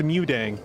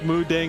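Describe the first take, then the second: First: The first syllable sounds like 'mew'. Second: The first syllable sounds like 'moo'. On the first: The speaker calls it right. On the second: The speaker calls it wrong.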